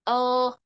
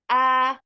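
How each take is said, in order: First: The vowel is muffled and held inside the mouth. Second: The vowel is open with the mouth wide. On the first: The speaker calls it wrong. "suaranya tidak boleh mendep di dalam, nggak boleh" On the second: The speaker calls it right. "cara bacanya membuka mulutnya"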